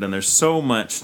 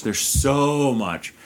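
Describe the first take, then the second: First: Said in the usual way. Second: "so" stretched out long and higher; heavy, drawn-out stress on "so"; emphatic SO. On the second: Real, not acted. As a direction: draw out "so" for emphasis. Emphatic repeat of same words.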